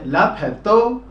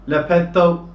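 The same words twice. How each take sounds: First: One syllable carries strong, foreign-sounding stress. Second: All syllables are said evenly without stress. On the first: "They put stress there" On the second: "We tend to pronounce words as it is"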